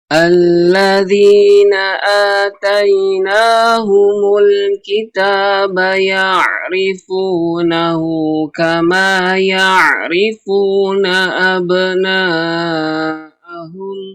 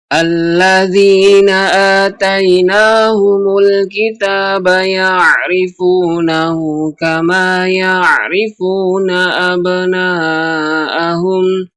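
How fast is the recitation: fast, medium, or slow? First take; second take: slow; medium. First: The verse is recited at a slow tempo. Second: The verse is recited at a medium tempo. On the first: "yaitu dengan perlahan" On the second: "dengan tempo yang lebih cepat"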